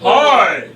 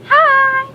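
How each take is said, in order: First: It is said in a low voice. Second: It is said in a high-pitched voice.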